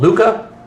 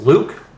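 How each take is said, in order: First: The final E is sounded as an A. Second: The final E is silent. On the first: This is the Spanish reading of the name. "E's are pronounced as an A" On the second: This is the English reading of the name. "in English is pronounced Luke"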